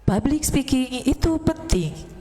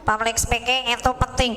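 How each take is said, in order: First: Full diaphragm voice, slow; chest voice. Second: Thin nasal voice, nose held; pinching nose. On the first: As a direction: speak from the diaphragm, nose held. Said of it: "kalau kita pakai suara dada atau diafragma". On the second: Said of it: "suara kita cempreng karena dari hidung". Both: Shown as a demonstration.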